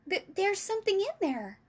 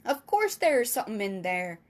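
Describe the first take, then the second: First: High, stammered cry of discovery; excited cry. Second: Giant's loud, matter-of-fact reply; lightly voiced giant, stating the obvious; BFG. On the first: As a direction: exclaim it high, like an amazed girl. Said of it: "cried out". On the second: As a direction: answer firmly as the giant, louder. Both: A narrator's reading.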